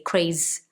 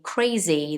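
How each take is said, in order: First: The word stops before its final vowel. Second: The final 'ee' vowel is fully sounded. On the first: The speaker calls it wrong. "they cut the word before they finish the word" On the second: The speaker calls it right. "Instead of saying crazy"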